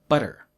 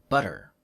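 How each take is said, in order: The two takes are said the same way.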